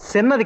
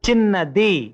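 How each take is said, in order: First: The word begins with an s-like sound. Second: The word begins with a ch sound. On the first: The speaker calls it wrong. "సా కాదు" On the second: The speaker calls it right. "చాచా జజ్జాలో చా"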